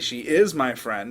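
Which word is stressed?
is. The word "is" carries the emphasis. It contradicts a claim that she is not. "I'm responding to somebody who just said she's not my friend"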